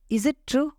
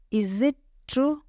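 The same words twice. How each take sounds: First: Said in the usual way. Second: "Is it ... true", drawn out with a gap before true; slow teaching repeat. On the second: Shown as a demonstration. Teacher repeating a question for learners, slowly and split up. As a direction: stretch "Is it" and set "true" apart.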